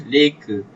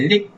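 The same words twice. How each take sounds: First: Leka with both syllables, final a said clearly; teacher models leka, full ending sounded; correct leka. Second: Lek clipped, final a dropped; wrong lek. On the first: Teacher shows pupils the right word, leka fully pronounced. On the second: Teacher shows pupils the wrong form, lek cut short. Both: Shown as a demonstration. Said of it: "Bukan lek".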